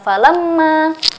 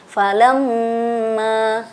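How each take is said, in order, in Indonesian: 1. Bunyi dengung m dipotong pendek. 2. Bunyi dengung m ditahan selama dua ketukan. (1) "Bukan falamma, tapi kita menahannya" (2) "kita tahan e, satu kali ayunan atau dua harokat"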